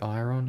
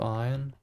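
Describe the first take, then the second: First: The R is clearly pronounced in the word. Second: The R is not pronounced in the word. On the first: The speaker calls it right. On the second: The speaker calls it wrong.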